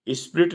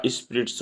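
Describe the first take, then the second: First: स्पिरिट said without a final s; स्पिरिट ending on a bare t; marking स्पिरिट as the wrong form; wrong singular form. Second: स्पिरिट्स said with a clear final s; स्पिरिट्स ending in ts; giving स्पिरिट्स as the right answer; correct plural form. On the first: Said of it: "स्पिरिट नहीं होता". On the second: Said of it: "स्पिरिट्स होता है". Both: Shown as a demonstration.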